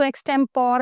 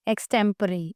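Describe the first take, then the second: First: एक्सटेम्पोर ending in one syllable "pore"; wrong pronunciation. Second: एक्सटेम्परी ending in a sounded "puh-ree"; correct pronunciation. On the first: Teacher warning students off a misreading, एक्सटेम्पोर ending in "pore". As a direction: say एक्सटेम्पोर with the final e silent. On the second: Teacher modelling for students, एक्सटेम्परी with a final "ree" syllable. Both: Shown as a demonstration. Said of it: "इसको एक्सटेम्पोर नहीं पढ़ना।".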